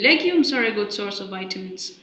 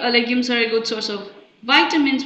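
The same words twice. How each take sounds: First: The stress falls on the word 'legumes'. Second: The stress falls on the word 'vitamins'. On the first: Legumes, rather than wheat, rice or bread, give vitamins. "which means legumes are a good source of vitamins, not, for instance, wheat or rice or bread" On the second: Legumes give vitamins rather than something else, such as protein. "shows that the vitamins is emphasized there"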